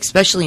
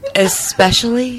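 First: It begins with an 'eks' sound. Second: It begins with an 'es' sound. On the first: The speaker calls it wrong. "With an X?" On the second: The speaker calls it right. "is that better?"

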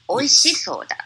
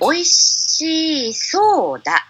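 First: The vowel before 'sou' is cut short. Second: The vowel before 'sou' is held long. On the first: The speaker calls it right. "To cut down the e" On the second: The speaker calls it wrong. "they said"

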